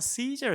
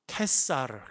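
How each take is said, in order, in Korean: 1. S 소리로 시작해요: see-zer. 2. K 소리로 시작해요: kae-sa-reu. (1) "영어로는 시저라고 발음한다" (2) "그거를 캐사르라고 발음했어요"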